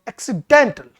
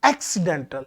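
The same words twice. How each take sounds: First: The main stress is on a later syllable. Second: The main stress is on the first syllable. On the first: "stress है वो sorry second पर चला" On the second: "पहले इसको primary stress के साथ बोला गया था"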